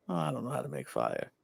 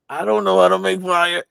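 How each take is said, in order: First: Soft, quick, lower pretend confession; feigned helplessness. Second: Louder, mock-panicked admission; inner panic. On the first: Sam playing clueless as a mind game, soft feigned helplessness. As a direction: toss it off softly as an act. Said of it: "But then act like". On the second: Sam panicking in his head over fire, louder inner panic. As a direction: blurt out the secret worry. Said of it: "in his head, he's like".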